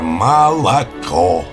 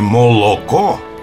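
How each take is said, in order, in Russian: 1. Безударные гласные редуцируются к звуку «а». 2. Безударные гласные произносятся как полное «о».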